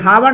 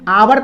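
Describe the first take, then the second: First: The word starts with an audible h sound. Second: The word starts with a vowel, no h sound. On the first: The speaker calls it wrong. "हावर नहीं पढ़ते हैं" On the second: The speaker calls it right. "एच का उच्चारण यहाँ पे अ है, आवर पढ़ते हैं"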